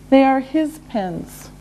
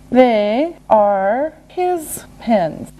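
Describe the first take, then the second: First: Said in the usual way. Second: Word by word, very slowly; slow and deliberate. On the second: Shown as a demonstration. Teacher modelling an answer for learners, slow and separated.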